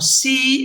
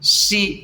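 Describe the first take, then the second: First: The pitch stays high and level. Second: The pitch stays mid and level. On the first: "high level" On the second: "that's the middle level"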